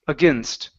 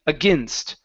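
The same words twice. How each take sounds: No difference in how they are said.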